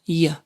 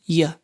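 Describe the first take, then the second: First: The vowel is a weak schwa sound. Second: The same.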